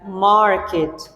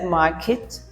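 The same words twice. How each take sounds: First: It is said with a strong R sound. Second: It is said without an R sound. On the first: "an American would pronounce it like market" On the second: "A British would pronounce it like as market"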